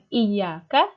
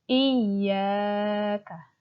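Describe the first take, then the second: First: The ya vowel is short. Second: The ya vowel is held for two beats. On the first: The speaker calls it wrong. "bukan iyyaka" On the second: The speaker calls it right. "dipanjangkan ya-nya itu dua harokat"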